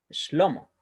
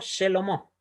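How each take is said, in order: First: No vowel is sounded between sh and l. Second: A vowel is sounded between sh and l. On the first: The speaker calls it right. "sino Shlomo" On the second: The speaker calls it wrong. "no Shelomo"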